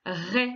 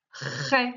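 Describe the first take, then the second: First: Said in the usual way. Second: "Ré" with the R drawn out and repeated before the vowel; teacher's dictation "Ré", leaning long on the R; sounded-out syllable. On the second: Shown as a demonstration. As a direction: sound out "Ré", stretching the opening R.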